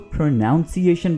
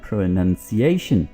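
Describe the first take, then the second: First: The second syllable has an 'ow' sound, 'nown'. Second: The second syllable has a short 'uh' sound, 'nun'. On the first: The speaker calls it wrong. "जो कि बिल्कुल गलत है" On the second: The speaker calls it right. "इसमें ओ तो नहीं है"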